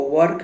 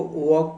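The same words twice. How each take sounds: First: वर्क with a rolled r, like Hindi वर्क; the wrong way, वर्क with the r sounded; wrong pronunciation. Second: वर्क as "wok", no r sounded; the correct way, वर्क without the r; right pronunciation. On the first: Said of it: "इसको वर्क नहीं पढ़ेंगे". (वर्क में र बोलकर, गलत उच्चारण) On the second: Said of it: "इसको वर्क पढ़ेंगे". (वर्क को "वॉक" जैसा, बिना र के) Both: Shown as a demonstration.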